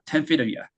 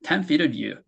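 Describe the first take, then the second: First: "Ten feet earlier" said "ten feeda ya"; casual "ya". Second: "Ten feet earlier" said "ten feeda you"; full "you". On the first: Teacher modelling casual speech, "Ten feeda ya". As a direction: end on a reduced "ya", linked to "feet". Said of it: "you라고 하지 않고 야라고". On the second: Teacher modelling the full pronoun, "Ten feeda you". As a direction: end on a full "yoo" after the linked "feet". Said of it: "U로 한번 해볼게요". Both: Shown as a demonstration.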